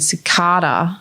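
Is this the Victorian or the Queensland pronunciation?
Queensland. It is said the Queensland way.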